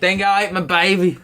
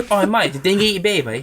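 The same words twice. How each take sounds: First: Mock Australian accent. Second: Higher, hammed-up Australian accent; mock Australian accent. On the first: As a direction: play the Aussie cliché. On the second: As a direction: ham up an Aussie.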